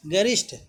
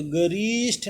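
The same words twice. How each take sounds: First: गरिष्ठ said ga-rish-th, short "ri"; short relaxed vowel. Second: गरिष्ठ stretched to ga-reesh-th; wrong long vowel. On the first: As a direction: say गरिष्ठ easily, without stretching it. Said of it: "आराम से बोलते हैं". (आराम से, गरिष्ठ में छोटी "रि") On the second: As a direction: draw out the "ri" of गरिष्ठ. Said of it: "गरिष्ठ नहीं होगा". (गलत उच्चारण, गरिष्ठ में लंबी "री") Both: Shown as a demonstration.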